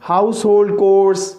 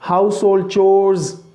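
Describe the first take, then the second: First: The second word starts with a k sound. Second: The second word starts with a ch sound. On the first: The speaker calls it wrong. "अक्सर लोग इसे ना कोर बोलते हैं" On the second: The speaker calls it right. "ये चोर है"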